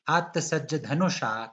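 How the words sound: The voice stops after धनुषा, as if explaining. The speaker calls it wrong. "रुकती क्यों हो? यति है क्या? ... व्हाई दैट टोन?"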